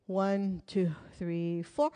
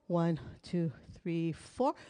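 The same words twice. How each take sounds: The two takes are said the same way.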